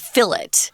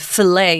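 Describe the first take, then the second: First: The final T is sounded. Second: The final T is silent. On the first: This is the British way, deliberately not French. "if you're listening to a British cooking show, they will say the fillet" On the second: This is the American, French-style way. "the way the French would, filet, ... we don't say that T"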